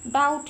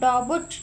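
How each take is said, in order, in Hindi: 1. b की ध्वनि silent है। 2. b की ध्वनि उच्चारित होती है। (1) "डाउट है ये वर्ड, तो बी साइलेंट है" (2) "हम डाउट नहीं पढ़ते इसको"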